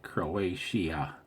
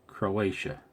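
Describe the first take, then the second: First: "Croatia" drawn out, ending in a separate "ee-uh"; weird pronunciation. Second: Said in the usual way. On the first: Real, not acted. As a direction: say "Croatia" oddly, as "cro-AY-shee-uh". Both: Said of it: "Why do I sound weird".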